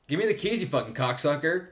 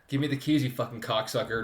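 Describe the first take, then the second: First: It is said with a bit more energy. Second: It is said in a flat, normal way.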